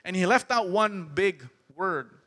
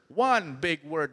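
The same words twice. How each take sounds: First: Said in the usual way. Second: "one big word" said slowly, each word weighted; slow emphatic repeat. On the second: Shown as a demonstration.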